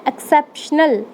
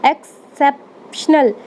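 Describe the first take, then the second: First: Said in the usual way. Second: exceptional said slowly, leaning on the middle "सेप"; stress on the middle syllable. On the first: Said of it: "तो किस पे ज़्यादा stress पड़ रहा है?". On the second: Shown as a demonstration. Teacher showing students where the stress falls, slow and stressed. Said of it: "CEP पे पड़ रहा है".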